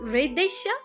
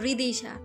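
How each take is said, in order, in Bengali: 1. মাঝের স্বরটি 'e'-এর মতো শোনায়। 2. মাঝের স্বরটি 'i'-এর মতো শোনায়। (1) "রিদেশা না" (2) "রিদিশা হবে।"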